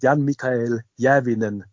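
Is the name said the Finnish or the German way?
German. It is said in German without rolled r. "wenn man sagt Jan-Mikael Järvinen, ist es schon top"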